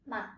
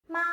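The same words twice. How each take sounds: First: "ma" light and short; neutral tone. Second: "ma" held high and level; first tone. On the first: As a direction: let "ma" drop off quickly and lightly. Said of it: "while the second is a neutral". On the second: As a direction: sustain "ma" on one high pitch. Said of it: "The first sound is a first tone". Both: Shown as a demonstration.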